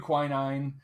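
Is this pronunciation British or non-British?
non-British. It is pronounced the non-British way. "but we do quinine"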